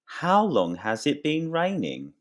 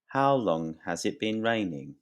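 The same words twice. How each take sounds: First: Higher, lively example question. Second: Said in the usual way. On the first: Shown as a demonstration. Teacher modeling the question for students, higher pitched. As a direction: ask it brightly to the class. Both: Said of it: "I can say".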